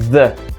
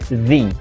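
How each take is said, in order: First: The vowel is a short 'uh' sound. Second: The vowel is a long 'ee' sound. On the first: The next word starts with a consonant. "Quando a próxima palavra começar com consoante, o artigo vai ter som de the" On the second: The next word starts with a vowel. "se a palavra começa com uma vogal, o som desse artigo vai ser the"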